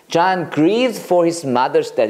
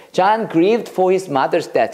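First: "John grieved for his mother's death" again very slowly; slow clear repeat for the class; slow teacher read; slow model sentence. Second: "John grieved for his mother's death" read very slowly; slow teacher read; slow model sentence. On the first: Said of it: "그건 grieve야". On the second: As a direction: spell it out slowly for memorizing. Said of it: "자, 이걸 외우자". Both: Shown as a demonstration.

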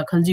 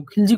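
First: "खलजी" said khal-jee, with short 'a'; correct pronunciation. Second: "खिलजी" said khil-jee, with short 'i'; wrong pronunciation. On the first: Teacher telling students the real name, correct pronunciation "खलजी", khal-. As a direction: give the proper "खलजी", khal- first. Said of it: "खिलजी कुछ नहीं होता". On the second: Teacher dismissing what students say, wrong pronunciation "खिलजी", khil-. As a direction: voice the mistaken "खिलजी", khil- first. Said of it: "आप लोग खिलजी बोलते हो". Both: Shown as a demonstration.

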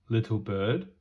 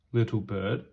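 The two takes are said the same way.

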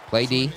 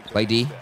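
Both takes have the same delivery.

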